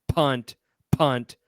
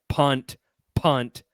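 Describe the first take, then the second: The two takes are said the same way.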